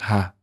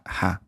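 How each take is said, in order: First: The h is said without extra breath. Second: The h is said with extra breath. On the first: "There's no breath here, just ha" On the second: "That's like a breathy ha"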